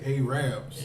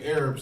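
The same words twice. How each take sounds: First: It is said in a rural Southern way. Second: It is said in a standard way.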